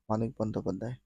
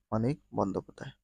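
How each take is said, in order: First: Said in the usual way. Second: Fast rattled-off repeat; quick repeat. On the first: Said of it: "quiz answer said once plainly". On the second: Shown as a demonstration. Quiz reader quickly repeating the answer. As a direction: rush through the answer a second time. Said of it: "answer repeated quickly".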